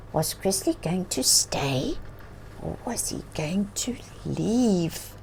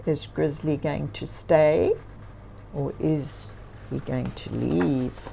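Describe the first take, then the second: First: Softer whispered question to the listeners; suspenseful whisper. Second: Said in the usual way. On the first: Acted. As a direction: build suspense in a hush. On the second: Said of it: "What do you think?".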